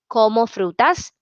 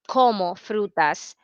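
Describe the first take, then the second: First: The word como carries no special emphasis. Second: The word como carries strong emphasis.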